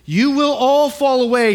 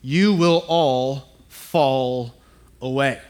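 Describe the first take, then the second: First: Louder, higher, emphatic on "all"; declared quote. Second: Slow, ominous, deliberate reading; fateful words. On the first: Acted. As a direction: proclaim it with force, stressing "all". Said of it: "Jesus told them". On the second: Shown as a demonstration. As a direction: let each word fall heavy and slow. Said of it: "starts off with these fateful words".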